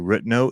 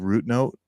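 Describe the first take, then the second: First: Pronounced with the speaker's local regional accent. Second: Pronounced the standard, non-regional way. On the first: "we'd say root note" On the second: "instead of root note"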